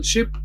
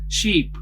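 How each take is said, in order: First: "ship" with a short, lax i like in "sit". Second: "sheep" with a long, tense ee, said slowly. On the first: Teacher contrasting vowel pairs for learners, short ship. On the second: Teacher contrasting vowel pairs for learners, slow long sheep. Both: Shown as a demonstration. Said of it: "similar but distinct".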